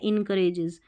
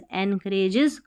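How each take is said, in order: First: The first syllable is said as 'in'. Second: The first syllable is said as 'en'. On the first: The speaker calls it wrong. "इन नहीं पढ़ना" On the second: The speaker calls it right. "एनकरेजेस का मतलब है"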